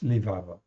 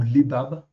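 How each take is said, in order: First: The word is said with v sounds. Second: The word is said with b sounds. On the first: "ça se prononce levav" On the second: "c'est deux bêtes"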